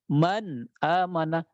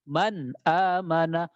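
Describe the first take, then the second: No difference in how they are said.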